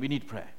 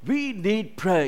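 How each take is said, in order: First: The phrase is said mildly, without force. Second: The phrase is said forcefully, with strong emphasis. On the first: Prayer is merely suggested as needed. "he's not saying we need prayer" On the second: Prayer is urgently and absolutely needed. "He's very forceful in the way he writes"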